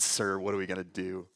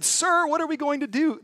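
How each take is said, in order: First: Lower, much softer, flat mock version; deadpan mock servant. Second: Higher, stiffly polite reading of the servant; polite servant, mock-proper. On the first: Preacher scoffs at the translation, low and soft. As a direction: mutter it low to show how unlikely it sounds. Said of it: "There's no way he said". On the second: Preacher reads the stiff translation aloud, politely higher. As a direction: read the tidy translation primly, a touch higher. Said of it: "here's what the text I read said". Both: Shown as a demonstration.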